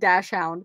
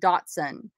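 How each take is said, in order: First: It starts with 'dash' and ends with 'hound'. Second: It starts with 'dot' and ends with 'son'. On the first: "I've always pronounced it Dash Hound" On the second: "that's Dotson"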